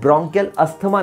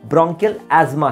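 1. 'Asthma' को 'th' की आवाज़ के साथ बोला जाता है। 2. 'Asthma' को बिना 'th' की आवाज़ के बोला जाता है। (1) "प्रोनाउंसिएशन ब्रोंकियल अस्थमा नहीं" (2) "ब्रोंकियल एस्मा है"

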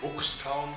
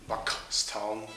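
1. Der Name wird mit weicheren Konsonanten ausgesprochen. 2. Der Name wird mit härteren Konsonanten ausgesprochen.

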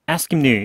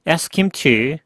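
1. 단어들이 빠르게 붙어서 줄어듭니다. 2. 각 단어를 또렷하고 완전하게 말합니다.

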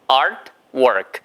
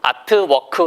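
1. 영어식 발음으로 말합니다. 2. 한국식 음절로 말합니다.

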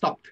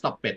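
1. คำนี้ลงท้ายด้วยเสียง t ธรรมดา 2. คำนี้ไม่ได้ลงท้ายด้วย t ธรรมดา (1) "อันนี้ต้องออกเสียงว่า ... ลงท้ายด้วยตัวที" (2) "ไม่ใช่"

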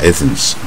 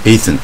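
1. 这个词结尾有 s 音。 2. 这个词结尾没有 s 音。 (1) "奇怪他加Athens" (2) "他应该是不加S 啊"

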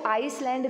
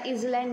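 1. इसमें s की आवाज़ है: eyes-land. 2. इसमें छोटा i और z की आवाज़ है: iz-land. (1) "इसको आइसलैंड नहीं बोलेंगे बेटा" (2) "या इजलैंड नहीं बोलेंगे"

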